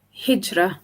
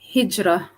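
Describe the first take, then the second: Both takes have the same delivery.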